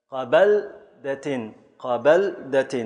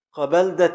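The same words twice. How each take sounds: First: قبلدة stretched slowly, syllable by syllable; slow scansion. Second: Said in the usual way. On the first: Shown as a demonstration. Teacher slowly scanning قبلدة so students hear مفاعل. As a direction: pull قبلدة apart into its beats. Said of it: "مفاعل". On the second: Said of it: "مفاعيل صارت مفاعل".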